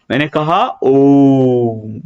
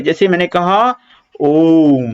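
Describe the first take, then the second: First: ओम drawn out very slowly, the ओ held long; chanting ओम with a long held vowel; prolonged vowel. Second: Said in the usual way. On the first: Shown as a demonstration. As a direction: stretch ओम far beyond normal length. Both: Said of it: "ये इसको इस तरह से बोलते हैं".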